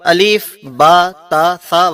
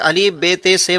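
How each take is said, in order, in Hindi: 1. अक्षरों के नाम 'a' स्वर से खत्म होते हैं। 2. अक्षरों के नाम 'e' स्वर से खत्म होते हैं। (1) "बल्कि अलीफ बा ता सा वगैरह पढ़ते हैं" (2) "अरबी जुबान के अंदर इसे अलीफ बे ते से वगैरह नहीं पढ़ते हैं"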